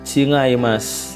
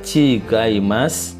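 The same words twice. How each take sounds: First: The middle consonant is a nasal ng. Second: The middle consonant is a hard g. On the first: "bisa dibaca eng" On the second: "bisa dibaca G"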